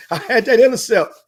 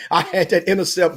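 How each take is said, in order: First: Bragging, punched up louder and higher; boasting to the host, louder and higher; louder triumphant repeat. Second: Said in the usual way. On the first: Retold or imitated. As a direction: crow it louder the second time.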